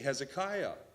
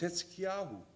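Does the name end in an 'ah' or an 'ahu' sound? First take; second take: ah; ahu. First: The name ends in 'ah', without a final vowel. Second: The name ends in 'yahu', with a final vowel. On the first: This is the familiar English form of the name. "We've lopped off the ending vowel. We say Hezekiah" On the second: This is the original Hebrew form of the name. "Hetzkiyahu in Hebrew"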